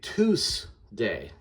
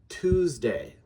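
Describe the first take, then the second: First: The middle consonant is a hissing S sound. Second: The middle consonant is a buzzing Z sound. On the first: The speaker calls it wrong. "because that's an S" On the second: The speaker calls it right. "That's actually how it's pronounced"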